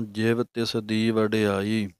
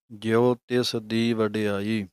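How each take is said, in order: First: ਜਿਵ said short with a final v, slow chant; Japji reading ਜਿਵ. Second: ਜਿਉ said with an open -o ending, not ਜਿਵ; Rehras reading ਜਿਉ. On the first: Teacher reciting the Japji line for the sangat, slowly. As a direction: clip ਜਿਵ to one syllable ending in v. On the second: Teacher reciting the Rehras line for the sangat, slowly. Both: Shown as a demonstration. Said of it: "ਜਿਵ ਦੀ ਜਗ੍ਹਾ ਤੇ ਜਿਉ ਬਣ ਜਾਣਾ ਹੈ".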